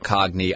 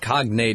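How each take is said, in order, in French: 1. Le mot se termine par un son 'nee'. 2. Le mot se termine par un son 'nate' bien net. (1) "not a cogni" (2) "it's cognate, N-A-T-E"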